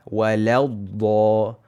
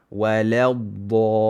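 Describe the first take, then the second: Both takes have the same delivery.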